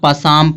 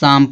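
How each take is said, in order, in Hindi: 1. शुरू की p ध्वनि बोली जाती है। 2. शुरू की p ध्वनि साइलेंट होती है। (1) "कुछ लोग पसाम पढ़ेंगे, पसाम नहीं पढ़ा जाएगा" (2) "शाम पढ़ा जाएगा"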